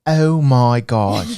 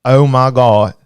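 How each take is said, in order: First: Very slow, drawn-out exclamation; put-on guess at a viewer's voice, stretched right out; pretend Cynthia. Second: Mock Southern Georgia drawl, a bit louder; Southern Georgia accent. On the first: Host pretending to be a viewer he never heard, put-on voice. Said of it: "I like to pretend". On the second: Host guessing a viewer's home state, mock Georgia accent. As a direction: put on a Georgia twang for the exclamation. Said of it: "Southern Georgia?".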